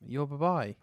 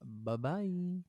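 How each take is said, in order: First: Imitating a high, loud bye-bye; mock high bye-bye. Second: High bye-bye. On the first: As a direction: echo the bye-bye higher and louder. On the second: Real, not acted. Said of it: "I did it again, Jay".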